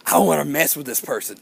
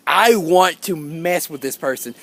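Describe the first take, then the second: First: Said in the usual way. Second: "I want to" drawn out slowly, each word separate; slow down and lean on "I want to mess"; deliberate emphasis. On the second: Retold or imitated. Schemer thinking he will mess with this person, slow deliberate emphasis. Repeats the thought slower, more deliberate.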